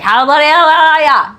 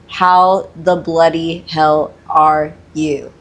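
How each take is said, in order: First: The words are slurred lazily into one stream. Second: The words are articulated clearly and separately. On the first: This is how it comes across to listeners. "it just sounds like" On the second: These are the words actually being said. "he actually does say something"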